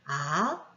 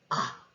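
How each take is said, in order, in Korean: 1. 모음의 높이가 올라갑니다. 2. 모음이 짧게 뚝 끊깁니다. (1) "올라가거나" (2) "이렇게 짧게까지 끊어지는 소리"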